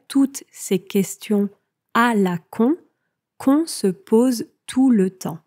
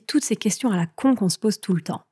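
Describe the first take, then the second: First: The sentence is spoken slowly and deliberately. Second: The sentence is spoken at normal conversational speed.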